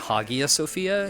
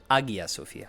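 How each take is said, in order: First: The opening H is sounded clearly and fully. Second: The opening H is very light and subtle. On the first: The speaker calls it wrong. "I've been saying" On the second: The speaker calls it right. "She had so much subtler of an H"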